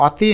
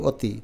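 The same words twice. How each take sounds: First: অতি with open 'aw' first vowel; spelling pronunciation. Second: অতি with rounded 'o' first vowel; natural pronunciation. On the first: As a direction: say অতি as 'aw-ti'. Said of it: "অতি না বলে আমরা". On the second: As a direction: say অতি as 'o-ti'. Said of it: "আমরা এটাকে বলি অতি". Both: Shown as a demonstration.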